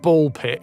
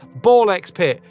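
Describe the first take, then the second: First: No X sound is heard between the words. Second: An X sound is heard between the words. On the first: "because you're not supposed to pronounce the X" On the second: "the X is in there, which means it's pronounced Ball X Pit"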